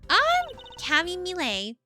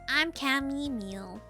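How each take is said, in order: First: The surname is said with two syllables, like millet. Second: The surname is said with one syllable, like meal. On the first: The speaker calls it wrong. "I mispronounced her last name" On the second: The speaker calls it right. "it is not Millet"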